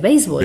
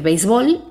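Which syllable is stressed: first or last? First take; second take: first; last. First: The stress is on the first syllable. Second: The stress is on the last syllable. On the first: "con tilde" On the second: "sin tilde"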